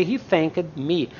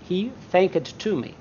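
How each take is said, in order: First: "He thanked me" in careful separate words, falling lower; teacher's measured "He thanked me"; correct form shown. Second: "thanked to me" said softer, as the form to avoid; quietly cite "thanked to me" with TO added; the mistaken "thanked to me", dropped in volume; wrong form shown. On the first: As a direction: model "He thanked me" carefully, without TO. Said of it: "We say". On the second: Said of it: "we don't say". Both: Shown as a demonstration.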